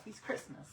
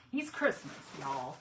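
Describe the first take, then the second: First: Said in the usual way. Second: He's Christmas in a lazy Southern drawl; playful Southern drawl for Southern friends. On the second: Shown as a demonstration. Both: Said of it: "I put in some Southern drawl there".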